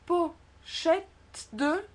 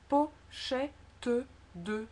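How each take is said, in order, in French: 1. Le e du milieu n'est pas prononcé, le T et le D se confondent. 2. Le e du milieu est prononcé, entre le T et le D. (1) "Si on ne le prononce pas, ça fait pochette de" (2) "je vous conseille de dire"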